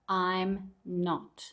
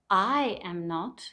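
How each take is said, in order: First: The first two words are merged into one syllable. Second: Each word is said separately, in full.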